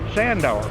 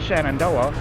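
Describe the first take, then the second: First: The name is shortened to two syllables. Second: The name is said in full, all syllables.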